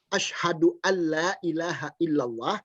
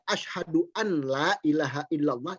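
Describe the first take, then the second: First: The 'n' is merged into the following 'l'. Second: The 'n' is pronounced separately before 'l'. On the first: The speaker calls it right. "Ini hukumnya idgham bila gunnah" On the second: The speaker calls it wrong. "itu artinya tidak berdasarkan tajwid"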